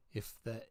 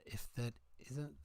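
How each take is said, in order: First: Said in the usual way. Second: A light Scottish lilt on if that isn't; Scottish accent. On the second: Pretend. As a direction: try the line in a Scottish accent. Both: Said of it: "just say in a Scottish accent".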